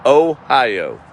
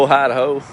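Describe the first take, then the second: First: Ohio with a laugh, falling, pleased to get it right; laughing, got the name right at last. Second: Ohio said carefully, oh-HIGH-oh, each part clear; slow careful Ohio, correcting a misread; corrected Ohio. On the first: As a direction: chuckle through Ohio, a little louder. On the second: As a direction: fix the state name from Idaho to Ohio. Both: Shown as a demonstration. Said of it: "There we go. I got it right".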